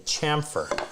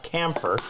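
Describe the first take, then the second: First: The word is said as chamfer. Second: The word is said as camphor. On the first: The speaker calls it right. "It's a chamfer" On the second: The speaker calls it wrong. "not camphor"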